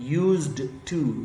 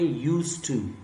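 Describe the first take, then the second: First: A clear d sound is heard before 'to'. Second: No d sound is heard before 'to'. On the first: The speaker calls it wrong. "आप नहीं कहेंगे यूज्ड to, ये गलत होगा।" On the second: The speaker calls it right. "आप इसे पढ़ेंगे यूज to."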